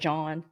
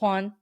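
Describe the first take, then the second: First: The name starts with an English J sound. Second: The name starts with a breathy H-like sound. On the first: The speaker calls it wrong. "You wouldn't say George or John" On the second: The speaker calls it right. "or Juan"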